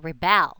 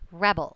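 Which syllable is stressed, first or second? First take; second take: second; first. First: The stress is on the second syllable. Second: The stress is on the first syllable. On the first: It is used as a verb. "If it's a verb, it's rebel" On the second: It is used as a noun. "That's the noun"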